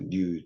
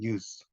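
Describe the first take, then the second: First: The final consonant is a voiced z sound. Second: The final consonant is a voiceless s sound. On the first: This is the English way. "영어식으로 할 때는 뉴즈가 됩니다" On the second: This is the usual Korean way. "우리는 뉴스라고 하지만"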